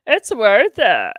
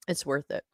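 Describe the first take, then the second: First: Slow, louder, savoring "It's worth it"; dramatic emphasis. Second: Said in the usual way. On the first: Shown as a demonstration. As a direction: land "It's worth it" like a slogan.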